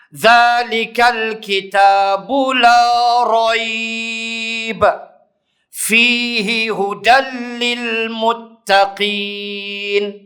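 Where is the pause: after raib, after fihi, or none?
after raib. There is a pause after raib. "Wajah pertama"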